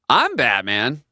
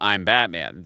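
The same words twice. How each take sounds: First: It is delivered in a stiff, staged way. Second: It is delivered in a relaxed, natural way. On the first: The speaker calls it wrong. "it was better than that" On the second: The speaker calls it right. "the way you say it there is sort of more natural"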